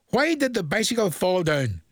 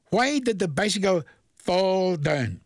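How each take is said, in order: First: Said in the usual way. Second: Slow riddle read. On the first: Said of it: "This is one sent in to me". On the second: Shown as a demonstration. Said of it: "Now think of it".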